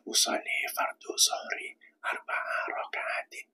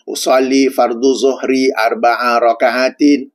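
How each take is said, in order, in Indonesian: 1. Diucapkan sangat pelan, hampir tidak terdengar. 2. Diucapkan dengan keras, pada volume suara penuh. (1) "secara sir, sekadar diri sendiri yang dengar" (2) "cakap dengan kuat, sebagaimana saya sedang cakap sekarang ni"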